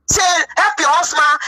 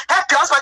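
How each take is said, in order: First: Slow, crying plea to help her husband; tearful plea. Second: Said in the usual way. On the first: Retold or imitated. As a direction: beg through tears. Pleading with German first lady.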